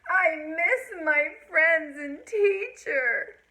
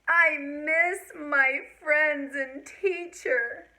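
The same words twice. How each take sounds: Both takes have the same delivery.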